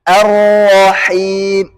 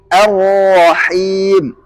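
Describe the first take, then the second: The two takes are said the same way.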